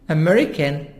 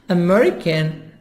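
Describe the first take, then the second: Both takes have the same delivery.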